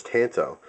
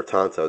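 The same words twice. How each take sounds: First: "tanto" with a short a as in "tan"; first pronunciation variant. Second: "tanto" with an open ah, TAHN-toe; alternative pronunciation. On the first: Knife reviewer giving a blade name, "tanto" said TAN-toe. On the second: Knife reviewer offering another pronunciation, "tanto" said TAHN-toe. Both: Shown as a demonstration. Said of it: "depending on how you say that".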